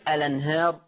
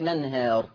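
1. تبدأ الكلمة بمقطع 'al'. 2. تبدأ الكلمة مباشرة بمقطع 'la'. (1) "التزم بعلم الرسم فأثبتها فتصير الأنهار" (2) "فتصير البدء مباشرة بالحرف المتحرك لنهار"

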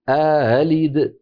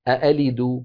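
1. يسبق الهمزة الثانية المسهلة ألف مد. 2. الهمزتان محققتان كلتاهما. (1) "يدخل بين الهمزتين ألفا ليباعد بينهما" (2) "الأصل أن تكون كلتا الهمزتين محققة"

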